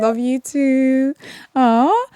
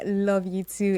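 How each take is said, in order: First: Slow, drawn-out love you too with a lift on "too"; a slow, lifted "Love you too" back to the caller; affectionate reply. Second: Said in the usual way. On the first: Real, not acted. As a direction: stretch "too" out fondly. Host answering a caller's love.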